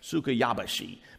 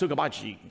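First: The name is said at an unhurried, normal pace. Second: The name is said very quickly, rushed together.

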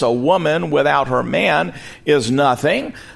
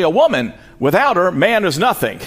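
First: It runs on with no pause after woman. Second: There are pauses after woman and after her.

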